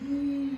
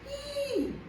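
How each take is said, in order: First: The sound is said with a disgusted tone. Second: The sound is said with a surprised tone. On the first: The speaker finds something repulsive. "It means disgust" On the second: The speaker is caught off guard. "It means like surprise"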